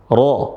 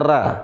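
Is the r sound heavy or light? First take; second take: heavy; light. First: The r is pronounced heavy and thick. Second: The r is pronounced light and thin. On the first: The speaker calls it right. "Kapan dia tebal ra? ... Ketika berharakat fathah" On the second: The speaker calls it wrong. "Bukan dibaca ra"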